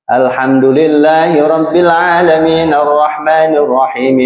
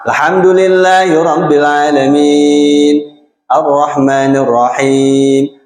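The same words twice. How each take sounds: First: It runs straight on without a pause after 'alamin'. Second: There is a pause for breath after 'alamin'. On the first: "Kalau kita nggak mau bernafas, disambung" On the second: "Ya berhenti aja, napas"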